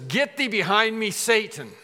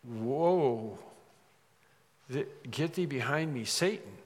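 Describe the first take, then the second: First: Loud, higher-pitched command; acted rebuke. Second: Hushed, stunned echo; acted shock. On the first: The Lord turns to Peter before the disciples, forceful rebuke. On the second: Peter reeling from the Lord's rebuke, acted stunned shock. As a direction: repeat the rebuke softly, halting in disbelief. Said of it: "someone who was really shocked".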